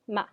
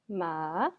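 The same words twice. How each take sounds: First: The pitch falls sharply from high to low. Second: The pitch dips low, then rises again. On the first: It means to scold. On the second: It means horse.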